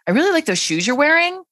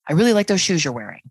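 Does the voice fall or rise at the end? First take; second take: rise; fall. First: The pitch rises at the end. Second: The pitch falls at the end. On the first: It sounds like a question or that more is coming. "With upspeak, it would sound more like this" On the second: It is a plain statement. "with a downward inflection at the end"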